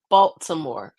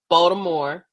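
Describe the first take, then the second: First: It is said fully with every syllable clear. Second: It is said in a clipped, local-sounding way. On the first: This is the standard pronunciation. "I pronounce it properly" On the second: This is how some local people say it. "like like some people say"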